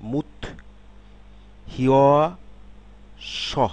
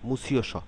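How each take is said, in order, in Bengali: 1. সিলেবলগুলো আলাদা, 't' তারপর 'h' ধ্বনি। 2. সিলেবলগুলো যুক্ত, একটি 'ch'-এর মতো ধ্বনি। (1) "আলাদাভাবে যদি বলি" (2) "শব্দে যখন আমরা এটি উচ্চারণ করব"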